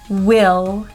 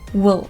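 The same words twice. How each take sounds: First: The vowel is full and clearly pronounced. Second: The vowel is reduced to a weak schwa. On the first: "in their strong form, they will be pronounced clearly with a very clear vowel sound" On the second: "in their weak forms, those words will not be stressed and the vowel sound will be reduced to a schwa"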